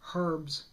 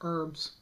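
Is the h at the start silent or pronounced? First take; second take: pronounced; silent. First: It is said in a British accent, h sounded. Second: It is said in an American accent, h dropped.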